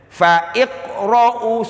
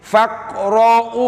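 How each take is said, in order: First: The 'i' vowel before 'qra' is pronounced. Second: The 'i' vowel before 'qra' is dropped. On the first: The speaker calls it wrong. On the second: The speaker calls it right. "I-nya nggak usah dibaca"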